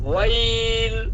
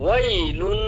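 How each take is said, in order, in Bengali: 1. শব্দটি টানা স্বরে থেমে যায়। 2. শব্দটি ছোট স্বরে চলে যায়। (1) "যদি থামি লামটার মধ্যে ওয়াকফ করি" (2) "কোনো মদ হবে না যদি না থামি"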